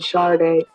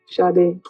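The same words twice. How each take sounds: First: The name has an American pronunciation. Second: The name has a Nigerian pronunciation. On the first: This is how people in America say it. "In America, people tend to go" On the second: This is the true native form of the name. "Sade, really"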